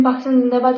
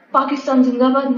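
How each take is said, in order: First: Said in the usual way. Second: Mock patriotic cheer. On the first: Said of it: "Pakistan زندہ باد کر کے". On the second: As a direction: cheer it like a half-serious slogan. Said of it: "Pakistan زندہ باد کر کے واپس آ کے".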